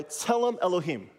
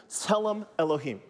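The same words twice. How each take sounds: First: A little louder. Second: "Tselem Elohim." said clearly, stress on TSE; model for repeating. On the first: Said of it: "a little louder". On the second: Teacher leads the class in repeating, clear model. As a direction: say "Tselem Elohim." for them to copy. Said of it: "Repeat after me". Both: Shown as a demonstration.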